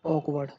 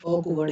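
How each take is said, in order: First: ऑकवर्ड said with a long "aa" at the start; wrong pronunciation. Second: ऑकवर्ड with a rounded "aw" at the start; correct pronunciation. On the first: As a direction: open the first vowel of ऑकवर्ड to "aak-". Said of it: "ऑकवर्ड नहीं बोलेंगे". (ऑकवर्ड को "आकवर्ड" बोलकर) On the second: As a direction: round the first vowel of ऑकवर्ड to "awk-". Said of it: "ऑकवर्ड ही बोलेंगे". (ऑकवर्ड को गोल "ऑ" से बोलकर) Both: Shown as a demonstration.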